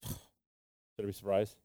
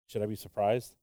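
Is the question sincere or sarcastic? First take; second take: sarcastic; sincere. First: It is asked in a sarcastic tone. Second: It is asked as a sincere question.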